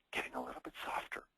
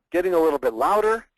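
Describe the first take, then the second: First: Whispered, much softer and quicker; getting softer. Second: Louder and higher, pushed out; getting louder. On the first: Coach demonstrating vocal variety, dropping to a whisper. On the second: Coach demonstrating vocal variety, getting louder. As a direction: swell the voice up loud. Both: Shown as a demonstration.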